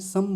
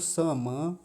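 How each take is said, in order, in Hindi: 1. अंतिम म की ध्वनि कम होती है। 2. अंतिम म की ध्वनि पूरी बोली जाती है। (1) "यहाँ गलती होती है। यहाँ क्या बोल देते हैं, सम बोल देते हैं।" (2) "मकार जो है पूरा है।"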